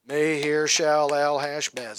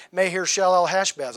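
First: "Maher-Shalal-Hashbaz" slowly, syllable by syllable; drawn-out syllables. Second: Said in the usual way. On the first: Shown as a demonstration. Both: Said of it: "That's a lot of syllables".

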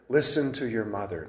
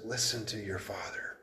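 First: Said in the usual way. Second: Soft unvoiced whisper; hushed whisper to a son. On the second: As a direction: breathe it like a secret counsel. Proverb's counsel, whispered.

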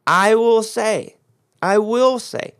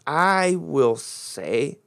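First: I will say, louder and higher with WILL stressed; preacher booming I will say with stress on will; emphatic repeat. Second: Words drawn out slowly; a slow first reading of I will say. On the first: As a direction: preach it out, hitting WILL each time. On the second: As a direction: read it out slowly, word by word. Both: Shown as a demonstration. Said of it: "this is very important in the English".

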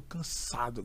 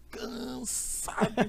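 First: Said in the usual way. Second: CANSADO stretched long on the first syllable; drawn-out emphasis. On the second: Retold or imitated. Preacher stressing how tired his guest arrived, CANSADO drawn out. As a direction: drag out CANSADO very slowly for effect.

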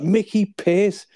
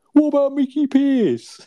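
First: Higher, slow disbelieving echo; incredulous repeat. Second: Much higher, louder, slow put-on voice; Albert slyly naming Mickey Pearce, high and drawn out; sly suggestion. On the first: Retold or imitated. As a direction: Dale aghast at the suggestion, slow incredulous echo. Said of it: "He's like". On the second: Acted sitcom dialogue.

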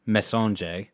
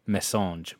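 First: "messaggio" in Italian, stress on the second syllable, messa-JO; Italian pronunciation. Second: "message" in French, stress on the first E, MESS-ahzh; French pronunciation. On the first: Radio host showing the Italian way, careful pronunciation. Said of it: "so if this was Italian, it would be". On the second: Radio host contrasting with the French way, careful pronunciation. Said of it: "the accent is on the first E". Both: Shown as a demonstration.

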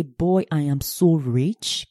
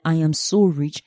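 First: Savoring being rich. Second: Said in the usual way. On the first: Shown as a demonstration. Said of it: "you say".

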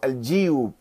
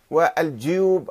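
First: الجيوب said al-jiyub; with kasra. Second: والجيوب said wal-juyub; with damma. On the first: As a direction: spread the first vowel of الجيوب to i. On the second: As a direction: round the first vowel of والجيوب to u. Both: Shown as a demonstration. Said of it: "بالضم والكسر".

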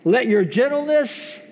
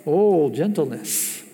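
First: Said in the usual way. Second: Slow and tender, drawn out; slow, tender demonstration of gentleness; gentle. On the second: Shown as a demonstration. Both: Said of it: "Does that sound like an angry person".

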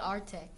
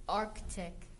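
First: "Arctic" as AR-tik; dropped C. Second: "Arctic" as ARK-tik, lower; sounded C. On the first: Host showing the common mistake, C-less Arctic. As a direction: leave the first C out of "Arctic". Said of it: "A lot of people say Arctic". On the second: Host teaching the proper word, hard-C Arctic. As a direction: pronounce the first C in "Arctic". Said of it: "It's not Arctic". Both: Shown as a demonstration.

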